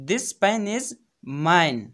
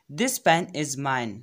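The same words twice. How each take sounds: First: Pause, then punch "mine"; teacher lands on "mine"; stress on mine. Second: Said in the usual way. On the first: Shown as a demonstration. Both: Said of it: "तो देखो".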